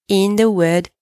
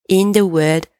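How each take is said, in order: Both takes have the same delivery.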